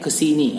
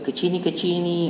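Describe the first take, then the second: First: The s is pronounced clearly as a plain s. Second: The s is replaced by a lisped baby-talk sound. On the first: The speaker calls it right. "harusnya kesini" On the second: The speaker calls it wrong. "stimulus yang cadel-cadel"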